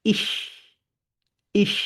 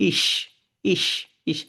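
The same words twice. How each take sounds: First: "ইস" with the hiss made further back; original German CH. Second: "ইস" with an ordinary palatal sh; plain Bangla sh. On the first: Teacher showing the original sound, "ইস" from further inside. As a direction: bring the end of "ইস" from further inside. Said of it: "আরেকটু ভিতর থেকে আসে". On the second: Teacher showing the Bangla approximation, "ইস" with sh. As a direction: end "ইস" on a simple sh. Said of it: "বলে এইভাবে". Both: Shown as a demonstration.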